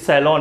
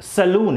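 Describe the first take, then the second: First: The second syllable has an open 'o' vowel. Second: The second syllable has a long 'oo' vowel. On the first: The speaker calls it right. "It is सैलॉन" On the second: The speaker calls it wrong. "It is not सैलून"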